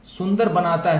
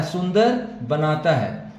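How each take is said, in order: First: Said in the usual way. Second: सुंदर बनाता है said slowly, word by word; slow teacher's repeat of सुंदर बनाता है; slow, careful repeat. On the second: Shown as a demonstration. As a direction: spell out सुंदर बनाता है slowly so students catch it.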